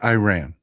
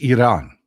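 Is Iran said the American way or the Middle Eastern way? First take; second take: American; Middle Eastern. First: It is said with an American pronunciation. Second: It is said with a Middle Eastern pronunciation. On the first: "I am from Texas. I pronounce it Iran. Most people in the United States do" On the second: "the correct pronunciation is Iran"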